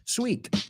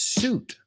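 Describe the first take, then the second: First: The word has a w-glide and an ee vowel. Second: The word has one long oo vowel. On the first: The speaker calls it wrong. "a lot of my students pronounce the word suit sweet" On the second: The speaker calls it right. "but it's suit"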